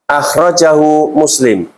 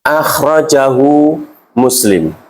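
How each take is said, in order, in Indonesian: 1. Dibaca dengan kecepatan normal. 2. Dibaca pelan-pelan dan jelas.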